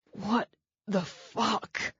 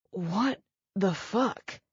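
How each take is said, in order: First: Slow, strained, airless hiss; winded hiss. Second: Slow, strained repeat, still short of breath; winded again. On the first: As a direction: squeeze it out with no breath left. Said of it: "that hissed out of him". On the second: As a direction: wheeze it out once more. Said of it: "he said again". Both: Acted.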